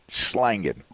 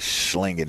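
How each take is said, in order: First: The vowel sounds like the a in slang. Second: The vowel sounds like the i in sling.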